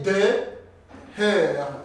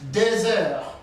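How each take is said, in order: First: The two words are kept apart, no z sound. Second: A z sound links the two words. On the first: The speaker calls it wrong. "That will not be good pronunciation" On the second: The speaker calls it right. "There is what we call liaison. I have connected X and this vowel"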